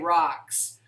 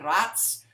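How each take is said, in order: First: The name sounds like the word rocks. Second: The name rhymes with the word rats. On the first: This is a new pronunciation chosen instead. "I'm going to say rocks" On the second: This is the family's own pronunciation. "I can't say it like that"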